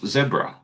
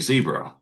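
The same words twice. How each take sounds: First: It is said with a British accent. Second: It is said with an American accent. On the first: "how I pronounce" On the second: "you guys say"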